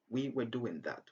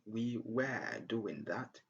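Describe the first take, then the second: First: The word 'were' has a short schwa vowel. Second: The word 'were' has a long, full vowel. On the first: "just say" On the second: "Instead of saying"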